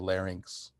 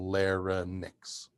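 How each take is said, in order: First: The ending sounds like the word lynx. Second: The ending does not sound like lynx. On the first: This is the speaker's own preferred way. "I like to say larynx, like the word lynx" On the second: This is how some other people say it. "they literally go larynx"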